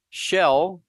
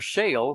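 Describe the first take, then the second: First: The vowel sounds like the one in 'shell'. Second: The vowel sounds like the one in 'shale'.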